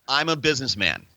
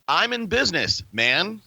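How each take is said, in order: First: It runs on without a break before 'man'. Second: There is a break before 'man'.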